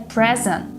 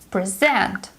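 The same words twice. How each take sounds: First: The stress is on the first syllable. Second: The stress is on the second syllable. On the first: It is used as a noun. "A present is a noun, and the stress is on the first syllable" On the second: It is used as a verb. "To present is a verb, so the second syllable is stressed"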